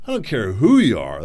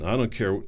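First: Emphatic. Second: Said in the usual way. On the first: Real, not acted. Repeats phrase with emphasis.

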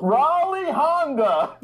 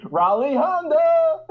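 First: High, slow laughing dealer cry; car dealer ad voice. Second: Car dealer ad voice. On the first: First dealer-name take. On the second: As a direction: drawl the dealer name like an ad. Mock dealer voice again. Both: Pretend.

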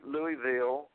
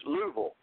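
First: Louisville said in full, LOO-ee-ville; Louisville as spelled. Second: Louisville squeezed down to LOO-vul; local pronunciation of Louisville. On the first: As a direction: sound out every syllable of Louisville, LOO-ee-ville. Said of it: "you never say Louisville". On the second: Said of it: "It's Louisville". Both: Shown as a demonstration.

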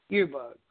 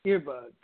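The two takes are said the same way.

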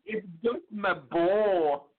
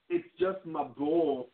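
First: Put-on high, slow Scottish child voice; a wee Scottish boy pleading over his ball; Scottish Brave accent. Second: Put-on slow, raised Scottish kid voice; a wee lad lisping about his ball; Scottish Brave accent. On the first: Host repeats Gideon's line in a high Scottish accent. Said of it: "any chance to do a Scottish slash Brave accent". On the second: Host replays the imagined scene in a Scottish kid voice. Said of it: "a Scottish slash Brave accent".

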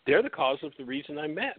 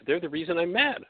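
First: Said in the usual way. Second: "They're the reason I'm mad" pitched higher, with "They're" and "mad" pressed; insistent raised restatement; emphatic restatement. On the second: Shown as a demonstration. Restates the same claim twice.

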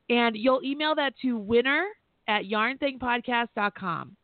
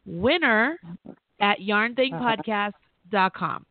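First: Said in the usual way. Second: Slow, deliberate read of the address, winner at yarn thing podcast dot com; slow down so every part lands; spelled out slowly. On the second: Shown as a demonstration. Host repeats the email address to the caller, slowly. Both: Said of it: "Really simple".

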